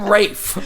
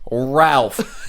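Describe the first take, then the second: First: The name is said rhyming with 'safe'. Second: The name is said with an L and F sound. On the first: The speaker calls it wrong. "You're not fucking Rafe" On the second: The speaker calls it right. "It's spelled R A L P H. Ralph"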